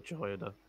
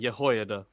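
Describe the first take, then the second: First: The name is said in an English style. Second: The name is said in a Hebrew style. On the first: "I would say Jehoiada" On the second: "now that Tomer has beaten so much Hebrew into me, I might pronounce it Yehoiada"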